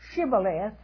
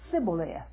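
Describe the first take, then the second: First: The word begins with a 'sh' sound. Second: The word begins with an 's' sound. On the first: The speaker calls it right. "Notice the difference?" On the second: The speaker calls it wrong. "He would say Sibboleth"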